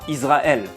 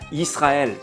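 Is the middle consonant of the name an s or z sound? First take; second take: z; s. First: The middle consonant is a buzzing z sound. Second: The middle consonant is a hissing s sound. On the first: The speaker calls it wrong. "et pas Israël, car sinon il y aurait la lettre zaïn" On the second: The speaker calls it right. "ce mot se prononce alors Israël"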